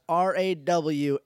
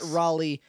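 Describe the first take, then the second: First: The name is not said like the city. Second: The name is said like the city. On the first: This is the character's real name. The speaker calls it right. "I want to say right now it's Rawley" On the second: This is the name of the town. The speaker calls it wrong. "It's not Raleigh, the town of North Carolina name"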